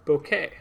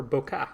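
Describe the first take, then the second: First: Bokeh ending in an "ay" sound; bokeh as BOH-kay. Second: Bokeh ending in an open "ah" sound; bokeh as boh-kah. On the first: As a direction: say bokeh to rhyme with okay. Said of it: "she pronounces it bokeh". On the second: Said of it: "bokeh, or bokeh". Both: Shown as a demonstration.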